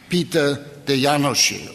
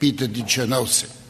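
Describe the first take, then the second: First: The name is said the Hungarian way. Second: The name is said with an American pronunciation.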